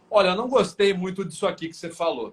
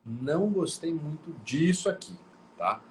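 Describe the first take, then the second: First: Higher and louder, "olha" hit hard; reclamação ríspida; harsh complaint. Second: Calm, mild way of saying "não gostei muito disso aqui"; gentle complaint. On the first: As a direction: say it with an irritated edge. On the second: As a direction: suave reclamação. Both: Shown as a demonstration. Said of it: "Ou eu posso falar".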